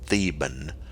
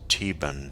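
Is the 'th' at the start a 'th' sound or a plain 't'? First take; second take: th sound; plain t. First: It begins with a 'th' sound. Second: It begins with a plain 't' sound. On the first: The speaker calls it wrong. "it looks to me like this should be called" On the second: The speaker calls it right. "the H is silent"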